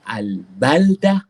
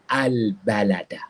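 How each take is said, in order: First: No vowel is heard between l and d. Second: A vowel is heard between l and d. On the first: "boleh dibaca dengan al-baldah" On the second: "boleh juga dibaca dengan al-balada"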